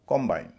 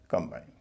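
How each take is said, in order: First: The stress is on the first syllable. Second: The stress is on the second syllable. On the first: It is used as a noun. "C ओ M का उच्चारण ओ होगा क्योंकि पहले से stress है, noun है।" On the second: It is used as a verb. "अगर verb के रूप में इस्तेमाल हुआ"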